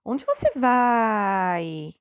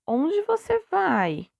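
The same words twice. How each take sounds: First: "Onde você vai" called out loud with a very long-held "vai"; "Onde você vai" as a loud, drawn-out exclamation; exclamation instead of question. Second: "Onde você vai" asked slowly, pitched high then falling on "vai"; "Onde você vai" as an exaggerated, slow questioning demo; question intonation. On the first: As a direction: exclaim "Onde você vai", stretching the last word right out. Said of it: "fazendo uma exclamação". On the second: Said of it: "tenho que ter a entonação de pergunta". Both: Shown as a demonstration.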